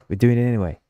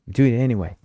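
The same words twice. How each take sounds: The two takes are said the same way.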